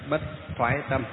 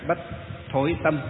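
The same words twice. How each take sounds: First: "thoái" said with a gliding oai; northern pronunciation. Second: "thối" said with the vowel ôi; southern pronunciation. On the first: Monk contrasting regional readings of the term, northern "thoái" with oai. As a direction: give "thoái" its northern w-glide into ai. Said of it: "miền Bắc chúng ta đọc là". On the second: Monk contrasting regional readings of the term, southern "thối" with ôi. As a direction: give "thối" its southern rounded ôi. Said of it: "miền Nam đọc là bất". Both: Shown as a demonstration.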